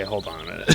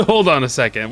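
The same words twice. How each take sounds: First: Said in the usual way. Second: Laughing. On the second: Real, not acted. Gamer laughing at a strange game painter, real laugh. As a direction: laugh into the words, a bit louder.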